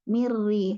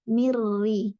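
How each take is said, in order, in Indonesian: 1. Bunyi n menyatu sepenuhnya ke dalam r yang dobel. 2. Bunyi n menyatu sepenuhnya ke dalam r yang dobel.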